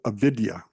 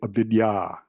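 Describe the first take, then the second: First: The final 'a' vowel is short. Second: The final 'a' vowel is long. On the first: The speaker calls it wrong. "A lot of a lot of folks will pronounce it" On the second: The speaker calls it right. "It's actually avidya, avidya. Once again, the long a at the end"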